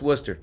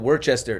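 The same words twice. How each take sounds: First: It is said short, in the clipped local way. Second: It is said fully, following the spelling. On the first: The speaker calls it right. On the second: The speaker calls it wrong.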